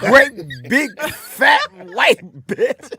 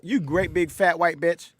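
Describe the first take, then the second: First: Each word is broken apart with breaks between. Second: The words run together without breaks.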